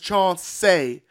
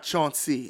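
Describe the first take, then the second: First: The name ends with a 'say' sound. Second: The name ends with a 'see' sound. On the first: The speaker calls it right. "And it's Chauncey, S-A-Y at the end" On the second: The speaker calls it wrong. "not Chauncey"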